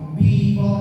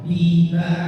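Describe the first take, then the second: First: The vowel after b sounds thick, like bo. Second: The vowel after b sounds thin, like ba. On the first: The speaker calls it wrong. "Jangan bibo bibo, enggak" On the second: The speaker calls it right. "jangan terdengarnya bo tapi ba"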